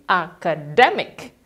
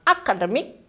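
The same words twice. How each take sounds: First: Academic slowly with DE punched; slow model academic, hit DE; stress on DE. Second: Akademik with flat Indonesian stress; wrong stress. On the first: Teacher giving the correct academic to students. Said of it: "tekankan di D-nya". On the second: Teacher contrasting wrong akademik for students. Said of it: "bukan akademik". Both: Shown as a demonstration.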